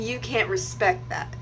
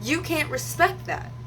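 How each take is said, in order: First: Said in the usual way. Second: "can't respect that" slower and higher; emphatic repeat. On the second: Retold or imitated. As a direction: drive home "can't respect that", slowly, then fall. Repeats retort with more emphasis.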